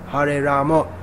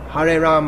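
First: The name ends with an added o vowel. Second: The name ends on the m sound. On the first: This is how people in Bengal say it. "it's just the way people pronounce. They say Ramo" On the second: This is how people in Hindi-speaking areas say it. "In the Hindi-speaking area, they'll just say Ram"

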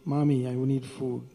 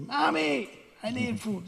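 First: It is said in a calm, flat tone. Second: It is said in an urgent, pleading tone. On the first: The child is merely stating a need. The speaker calls it wrong. "he doesn't say" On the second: The child is crying out desperately for help. The speaker calls it right. "So it's in the vocative like that"

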